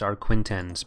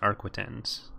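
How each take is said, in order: First: An extra n sound comes before the t. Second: No n sound comes before the t. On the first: This is how other people say the name. The speaker calls it wrong. "People have been trying to tell me that it's Arquintens" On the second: This follows the spelling of the name. The speaker calls it right. "there's no first N. It's just Arquitens"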